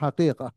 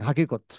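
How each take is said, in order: First: The word ends in a vowel, without t. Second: The word ends with a final t sound.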